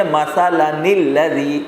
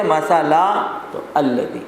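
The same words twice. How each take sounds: First: مثلاً الذی run together as masala-nil-ladhi; recited مثلاً الذی, no break, n carried across; joined reading. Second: مثلا ends on a long "laa", pause, then الذی restarts with "al"; recited مثلا with the n dropped at the break; stopped reading. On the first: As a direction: link مثلاً into الذی with a sounded "ni". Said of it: "تو آپ اس کو پڑھیں گے". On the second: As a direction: stop after مثلا without the n, begin الذی afresh. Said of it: "لیکن اگر آپ رک گئے". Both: Shown as a demonstration.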